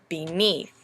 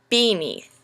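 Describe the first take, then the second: First: The stress is on the second syllable. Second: The stress is on the first syllable. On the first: The speaker calls it right. "it starts off with an unstressed and ends with a stressed" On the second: The speaker calls it wrong. "as opposed to beneath"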